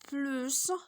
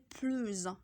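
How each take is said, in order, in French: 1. Le mot se termine par un son s clair. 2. Le mot se termine par un son z de liaison. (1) "on va dire plus et on va prononcer le S" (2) "quand on fait la liaison, on dit plus"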